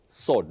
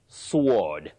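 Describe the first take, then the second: First: The W sound is silent. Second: The W sound is pronounced. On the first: The speaker calls it right. "That W is silent" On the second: The speaker calls it wrong. "please don't say sword"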